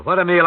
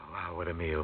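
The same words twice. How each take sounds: First: "what a meal" higher and louder, punching "meal"; excited exclaim. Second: Hushed, much softer "wow, what a meal", stress on "a"; awed hush. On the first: Host relishing the feast for listeners, excited. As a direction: burst out "what a meal" with delight. Host marvels at the dinner menu. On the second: Host overwhelmed by the menu, hushed and awed. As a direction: breathe "wow, what a meal" almost to yourself. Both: Real, not acted.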